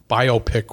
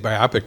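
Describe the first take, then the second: First: It is said like two words, bio pic. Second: It is said as one single word. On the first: The speaker calls it wrong. "Biopic would be B I O space P I C" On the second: The speaker calls it right. "I say biopic because that's the word"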